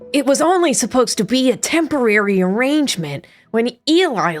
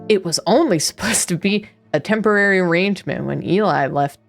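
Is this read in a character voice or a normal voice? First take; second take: character; normal. First: It is read in a put-on character voice. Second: It is read in the reader's own normal voice.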